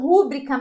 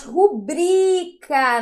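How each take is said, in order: First: Rúbrica stressed on the first syllable, RU; the common mistake, RÚ-bri-ca; wrong stress rúbrica. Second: Rubrica stressed on bri, slow and loud; correct stress rubrica. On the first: Teacher showing students the wrong way, stressed RÚbrica. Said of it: "não rúbrica". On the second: Teacher giving students the right form, slow ruBRIca. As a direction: slowly hit BRI in ru-BRI-ca. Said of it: "não rúbrica, mas rubrica". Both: Shown as a demonstration.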